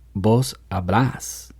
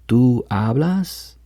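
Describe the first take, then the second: First: The stress is on the last syllable of hablas. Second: The stress is on the first syllable of hablas.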